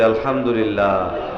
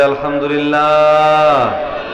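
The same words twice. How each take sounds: First: It is said at normal volume. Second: It is said more loudly.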